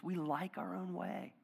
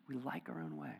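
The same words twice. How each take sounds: First: "our" leaned on slowly; slow, deliberate stress on "our"; slow emphasis. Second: Soft confessional echo; quiet repeat. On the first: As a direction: draw out "We like our own way" with weight on "our". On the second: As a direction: drop "We like our own way" to a soft echo. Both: Shown as a demonstration.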